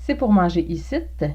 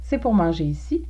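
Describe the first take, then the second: First: The last word ends with an added "t" sound. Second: The last word is said as standard "ici".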